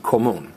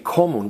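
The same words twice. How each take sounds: First: The stress is on the last syllable. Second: The stress is on the first syllable. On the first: The speaker calls it right. "we say común" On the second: The speaker calls it wrong. "in Spanish we normally stress the next to last vowel, but we don't say común"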